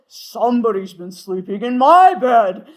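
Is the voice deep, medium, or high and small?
deep. It is said in Papa Bear's deep voice.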